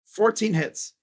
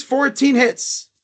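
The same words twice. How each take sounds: First: "Fourteen hits" dropped softer, falling; softer disgusted repeat. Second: "fourteen hits" said slowly, leaning on "fourteen"; slow emphasis. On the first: Repeating the stat to viewers, softer and disgusted. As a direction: mutter the stat again in disgust. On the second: Mocking the stats to viewers, slow and heavy. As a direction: drag out the stat in disbelief. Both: Real, not acted.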